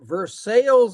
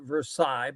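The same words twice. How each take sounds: First: It uses the local Indiana pronunciation of the name. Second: It uses the outsider pronunciation of the name. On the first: This is how the town's residents say it. "but they pronounce it Versailles, Indiana" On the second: This is how people from elsewhere say it. "We pronounce it Versailles"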